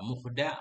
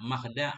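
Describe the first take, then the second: First: The vowel after the m is u. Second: The vowel after the m is a. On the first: "Dhammul mim, dhammah mim" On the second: "Fathuha, fathahnya mim"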